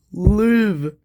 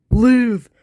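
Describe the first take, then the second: First: A hushed high plea; pleading plea. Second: High, loud desperate cry; louder plea. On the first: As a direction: beg him to live. Begging a dying friend. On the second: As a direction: shout it as a last plea. Begging again, harder. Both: Acted.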